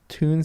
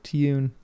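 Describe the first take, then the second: First: The word is said in the speaker's usual accent. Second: The word is said in a British accent.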